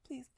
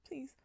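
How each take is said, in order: Both takes have the same delivery.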